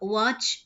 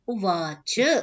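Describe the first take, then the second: First: The final short vowel is dropped. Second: The final short vowel is fully pronounced. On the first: The speaker calls it wrong. "ऐसा नहीं चलता" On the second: The speaker calls it right. "जब बोलेंगे तभी वो अम, स्वीकार किया जाता है"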